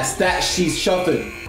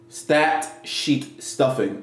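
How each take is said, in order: First: The words are slurred together, not clearly articulated. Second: The words are clearly and carefully articulated. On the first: The speaker calls it wrong. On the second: The speaker calls it right.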